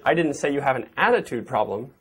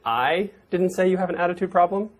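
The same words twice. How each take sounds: First: The stress is on the word attitude. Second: The stress is on the word I.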